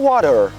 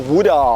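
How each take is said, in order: First: It is said with an American accent. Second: It is said with an Australian accent.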